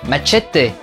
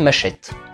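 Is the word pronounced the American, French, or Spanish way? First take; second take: Spanish; French. First: The word is said with a Spanish pronunciation. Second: The word is said with a French pronunciation. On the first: "en espagnol" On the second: "Et en français"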